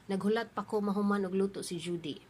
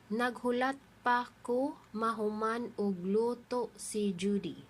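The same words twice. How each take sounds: First: The sentence is said at normal speaking speed. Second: The sentence is said slowly and carefully.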